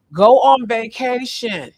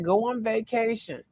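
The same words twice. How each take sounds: First: Loud, slow, drawn-out "Go on vacation"; emphatic command. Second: Softer, higher "Go on vacation" with a falling end; lighter repeat. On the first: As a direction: stretch out "Go on vacation" firmly, like an order. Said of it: "have to say it like that". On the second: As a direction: toss off "Go on vacation" lightly, stress on Go. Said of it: "I have to say it like that". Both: Shown as a demonstration.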